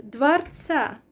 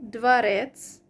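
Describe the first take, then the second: First: "dvarca" with the stress moved onto the final CA; changed stress. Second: "dvarec" with the second syllable stressed, dvaREC; stress on last syllable. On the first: Showing how it changes in this form, end stress on "dvarca". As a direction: land hard on CA in "dvarca". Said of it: "it changes". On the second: Demonstrating the last-syllable stress, end stress on "dvarec". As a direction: hit REC in "dvarec". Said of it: "the stress is on the last syllable". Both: Shown as a demonstration.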